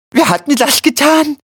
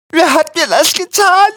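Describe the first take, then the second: First: High, pained wail of the wounded; wimmernd. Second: Very high, louder agonised whimper; wimmernd. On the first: (hoch und gequält klagend) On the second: (sehr hoch und laut wimmernd) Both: A narrator's reading. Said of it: "wimmerte Quillipi".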